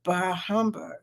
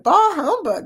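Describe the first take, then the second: First: Low muttered bah humbug; grumbled. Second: High, loud theatrical bah humbug; exclaimed. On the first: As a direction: mutter it under your breath. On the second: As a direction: proclaim it like Scrooge. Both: Shown as a demonstration. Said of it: "Yeah, I said it".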